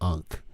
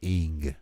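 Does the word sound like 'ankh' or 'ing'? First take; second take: ankh; ing. First: The word is said as 'ankh', with a k. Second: The word is said as 'ing', without a k. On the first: The speaker calls it wrong. "You don't pronounce it as Ankh" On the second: The speaker calls it right. "You pronounce it as Ing"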